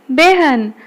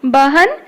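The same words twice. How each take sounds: First: बेहन said be-han; बेहन as spoken Hindi behan; a becomes e. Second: बहन with an open a before h; बहन said ba-han, vowel unchanged; as spelt. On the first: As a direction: give बेहन an e vowel before h. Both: Shown as a demonstration. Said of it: "एगुड़ाक पिले उच्चारित हब".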